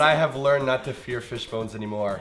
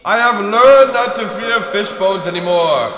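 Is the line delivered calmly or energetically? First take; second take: calmly; energetically. First: It is said in a plain, low-energy way. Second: It is said with lots of energy and gusto.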